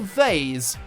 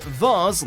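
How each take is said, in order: First: The vowel sounds like in Hayes, American style. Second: The vowel sounds like in Mars, British style.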